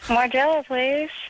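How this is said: It is said in a deep, low voice.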